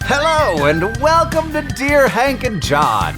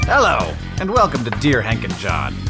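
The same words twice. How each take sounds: First: It is said with high energy. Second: It is said with low energy.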